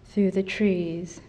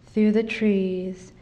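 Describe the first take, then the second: No difference in how they are said.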